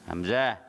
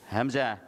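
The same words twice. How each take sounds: The two takes are said the same way.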